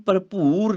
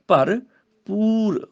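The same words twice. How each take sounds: First: "ਭਰਪੂਰ" with the second syllable said like bhoor; wrong second P. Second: "ਭਰਪੂਰ" slowly, bhar then poor; clear P. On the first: Teacher shows the mistake, "ਭਰਪੂਰ" ending as bhoor. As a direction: blur the P of "ਭਰਪੂਰ" into bh. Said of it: "ਇਹਨੂੰ ਭਰਪੂਰ ਨਹੀਂ ਬੋਲਣਾ". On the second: Teacher corrects it, slow "ਭਰਪੂਰ" with clear P. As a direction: split "ਭਰਪੂਰ" and sound the P cleanly. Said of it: "ਪੱਪਾ ਹੀ ਬੋਲਣਾ ਹੈ". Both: Shown as a demonstration.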